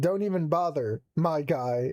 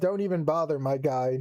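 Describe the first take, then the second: First: There is a pause before "my guy." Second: It runs on with no pause before "my guy."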